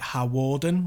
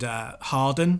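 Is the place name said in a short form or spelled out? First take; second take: spelled out; short. First: The name is said fully, as it is written. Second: The name is said in a short, clipped form. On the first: The speaker calls it wrong. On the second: The speaker calls it right.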